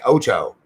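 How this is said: It is said with an English-speaking North American accent. The speaker calls it wrong. "like a Canadian or American would say"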